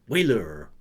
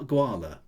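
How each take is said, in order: First: The word begins without a G sound. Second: The word begins with a G sound. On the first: "Is it a sort of silent G, perhaps?" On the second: "as as sort of rhymes with koala"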